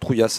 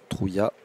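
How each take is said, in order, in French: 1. Le nom se termine par un « s » final prononcé. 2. Le nom se termine sans son « s » final. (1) "Peut-être prononciation plus euh, locale" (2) "qu'on pouvait dire les deux"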